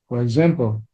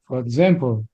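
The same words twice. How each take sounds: The two takes are said the same way.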